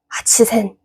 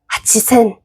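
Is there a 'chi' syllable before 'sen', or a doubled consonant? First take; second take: chi syllable; chi syllable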